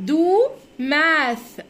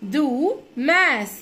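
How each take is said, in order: Both takes have the same delivery.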